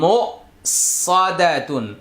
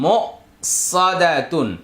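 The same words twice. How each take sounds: The two takes are said the same way.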